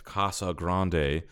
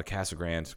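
First: Casa Grande said slowly as KAH-sah GRAHN-day; Spanish-style pronunciation. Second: Said in the usual way. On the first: Shown as a demonstration. Naming the town on the way back, Casa Grande in Spanish style. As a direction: draw out Casa Grande with broad a's and a final -ay. Says the town name two ways.

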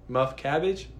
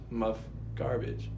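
First: Muff cabbage said with a questioning rise; trying out CABBAGE. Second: Muff garbage said slow and soft; trying out GARBAGE. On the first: Reader testing how the slang sounds, cabbage with questioning rise. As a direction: say cabbage, with a c and no r, lifting at the end. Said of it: "sound like they're saying muff cabbage". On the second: Reader comparing it with cabbage, slow soft garbage. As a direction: say garbage with g and r, slowly, dropping away. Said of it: "Garbage, my bad". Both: Shown as a demonstration.

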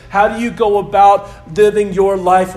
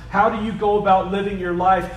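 First: Louder, weight on "about"; emphatic repeat. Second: Said in the usual way. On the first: Shown as a demonstration. Pastor presses the congregation, louder and emphatic. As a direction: drive the question home.

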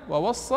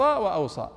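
First: "ووصى" as wa-was-saa, doubled s, rising; first variant. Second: "وأوصى" as wa-aw-saa, falling; second variant. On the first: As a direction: say "ووصى" with a held s. («ووصى» بصاد مشددة) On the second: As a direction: say "وأوصى" with aw and single s. («وأوصى» بهمزة وصاد مخففة) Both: Shown as a demonstration. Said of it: "هذه من المواضع".

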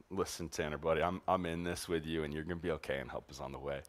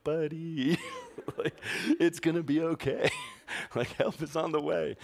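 First: Softer, lower comforting words; tender reassurance. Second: Higher, laughing comfort from a distance; mock reassurance. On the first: Retold or imitated. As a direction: quietly soothe a scared kid. Comforting sick kid with arm around. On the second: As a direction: fake soothing voice, breaking into laughs. Comforting kid from feet away.

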